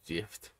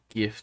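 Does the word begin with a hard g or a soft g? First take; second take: soft; hard. First: The word begins with a soft g sound. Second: The word begins with a hard g sound. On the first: The speaker calls it right. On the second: The speaker calls it wrong.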